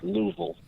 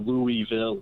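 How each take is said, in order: First: The syllables are slurred together into one. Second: The syllables are said separately and clearly. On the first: The speaker calls it right. "It's just a big kind of slur of all of the beginning to the end" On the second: The speaker calls it wrong. "There's no Louisville"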